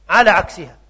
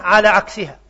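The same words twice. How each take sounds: Both takes have the same delivery.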